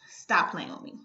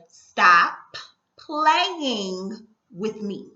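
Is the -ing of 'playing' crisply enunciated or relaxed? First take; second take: relaxed; enunciated. First: The -ing of playing is said in a relaxed way. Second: The -ing of playing is crisply enunciated and stressed.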